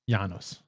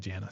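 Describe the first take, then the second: First: The name is said the Latin way. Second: The name is said the American way. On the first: This is how a Roman would say it. "Or if you're a Roman, maybe" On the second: This is how people in the US say it. "But here in the U S, we call it we say"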